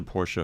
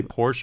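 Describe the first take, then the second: First: Porsche said as PORSH-uh; two-syllable Porsche. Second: Porsche said as one syllable, PORSH. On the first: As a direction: say Porsche with an "uh" on the end. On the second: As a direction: say Porsche as "porsh", silent final e. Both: Shown as a demonstration. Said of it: "do you say Porsche or Porsche".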